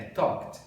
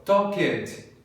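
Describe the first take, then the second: First: "talked" in one syllable, ending K-T; pronúncia certa. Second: "talked" slowly in two syllables, talk-ED; pronúncia errada. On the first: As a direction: close "talked" straight from K into T. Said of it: "É talked". ("talked" numa sílaba só, com som de T) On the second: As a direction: add a full "ed" beat to "talked". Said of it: "tá errado". ("talked" errado, com sílaba extra: tal-ked) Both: Shown as a demonstration.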